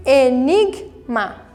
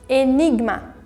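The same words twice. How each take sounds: First: "Enigma" broken slowly into e-nig-ma; slow syllable split. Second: Said in the usual way. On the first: Shown as a demonstration. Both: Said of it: "Também fica na sílaba ali anterior".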